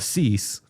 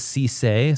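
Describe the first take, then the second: First: The name is said like 'cease'. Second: The name is said like 'see-say'. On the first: The speaker calls it right. "But uh uh Cease, the South Carolina corner" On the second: The speaker calls it wrong. "I think I was calling him a Cisse"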